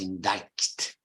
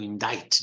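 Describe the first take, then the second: First: A K sound is pronounced before the T. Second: No K sound is pronounced before the T. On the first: The speaker calls it wrong. "not indict" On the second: The speaker calls it right. "with a silent C"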